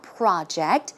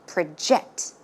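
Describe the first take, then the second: First: The stress is on the first syllable. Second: The stress is on the second syllable.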